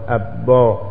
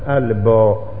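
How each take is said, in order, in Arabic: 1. تُحذف لام التعريف. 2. تُنطق لام التعريف بوضوح. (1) "فلا يقال" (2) "بل لابد أن يقال"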